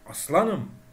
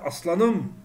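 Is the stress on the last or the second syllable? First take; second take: second; last. First: The stress is on the second syllable. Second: The stress is on the last syllable. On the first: "istemsizce oradaki la'ya yükleniyorum" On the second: "istemsizce son heceye vurguyu yapıyorum"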